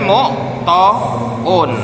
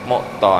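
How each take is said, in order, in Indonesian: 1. Ada vokal u tambahan sebelum n di akhir. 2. Kata berakhir langsung dengan -ton, tanpa vokal tambahan. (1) "Tidak boleh jenengan memberikan domah di sini" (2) "tanwin itu kemudian dibebankan ke sini"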